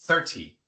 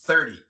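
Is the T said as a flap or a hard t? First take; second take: hard t; flap. First: The t is a clear, hard t sound. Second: The t sounds like a quick tapped r. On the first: The speaker calls it wrong. "y no thirty" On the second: The speaker calls it right. "por eso se pronuncia thirty"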